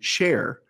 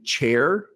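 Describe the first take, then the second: First: The word begins with an 'sh' sound. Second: The word begins with a 'ch' sound. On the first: "she'll say share" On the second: "instead of saying chair"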